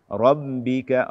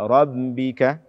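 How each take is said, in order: No difference in how they are said.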